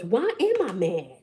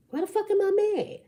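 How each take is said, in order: First: Said in the usual way. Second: Much higher, fast, exasperated cry; mock exasperated squeal. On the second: Shown as a demonstration. Reader asking herself why she's mad, in a high squeal. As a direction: squeal it like you're fed up with yourself. Exaggerated repeat of own question.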